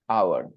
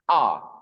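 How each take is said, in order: First: It glides through several vowel sounds. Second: It is said with a single long vowel. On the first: "and American pronunciation, our" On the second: "British pronunciation, R, just R"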